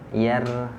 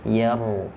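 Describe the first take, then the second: First: The r is pronounced light and thin. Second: The r is pronounced heavy with tongue back raised. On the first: The speaker calls it wrong. "Jangan yar" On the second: The speaker calls it right. "tapi ditebalkan, langsung diangkat pangkal lidahnya"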